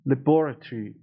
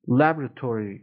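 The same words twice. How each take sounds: First: It is said with a British accent. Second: It is said with an American accent.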